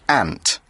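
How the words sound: The vowel is flat, as in American speech. "In the U S, it is kind of pronounced more like ant"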